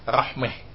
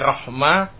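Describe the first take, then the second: First: The last vowel is tilted toward an e sound. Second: The last vowel is an open a sound.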